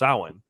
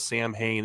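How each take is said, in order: First: It is pronounced differently from its spelling. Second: It is pronounced just as it is spelled. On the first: The speaker calls it right. "it's a Celtic word, so it's pronounced Samhain" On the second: The speaker calls it wrong. "pronounces it wrong and says Sam Hain"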